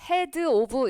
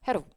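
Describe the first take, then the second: First: The two words are pronounced separately. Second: The two words are run together. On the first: "이렇게 안 들리고요" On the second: "발음이 이렇게 살짝 붙여버리면"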